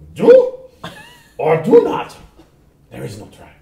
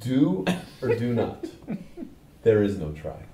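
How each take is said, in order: First: It is said in a put-on character voice. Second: It is said in the speaker's normal voice.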